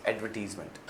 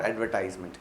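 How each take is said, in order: First: "advertisement" said as ad-ver-TEEZ-ment, with an "ee" vowel; corrected pronunciation. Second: "advertisement" said as ad-ver-TIZE-ment, with an "eye" vowel; common mispronunciation. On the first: Teacher correcting students' word, "advertisement" as ad-ver-teez-ment. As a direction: say "advertisement" with "teez" in place of "tize". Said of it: "it's advertisement".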